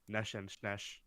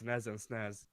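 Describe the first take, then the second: First: The s sounds are said as 'sh'. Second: The s sounds are plain, not 'sh'. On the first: This follows Hungarian pronunciation rules. "if you actually want to follow Hungarian pronunciation things" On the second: This is the common local way of saying it. "that's actually the widely accepted pronunciation over here"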